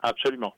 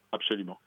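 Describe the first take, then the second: First: Absolument said loud and punched; emphatic absolument. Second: Said in the usual way. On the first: Real, not acted. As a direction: stress on absolument, then relax. Emphatic agreement with host. (absolument appuyé et fort)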